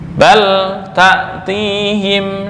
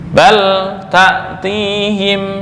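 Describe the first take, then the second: First: The l sound is pronounced clearly. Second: The l sound is pronounced clearly.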